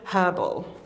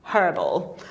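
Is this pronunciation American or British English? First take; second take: British; British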